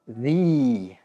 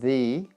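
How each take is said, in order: First: The word is said full and a little long. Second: The word is said short and reduced. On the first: "the strong sound, the. It's a little bit long" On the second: "two weak sounds"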